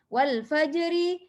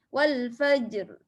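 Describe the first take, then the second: First: The phrase ends with a final vowel sound. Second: The phrase ends on a consonant sound. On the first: The recitation continues without stopping. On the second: The reciter stops at this word.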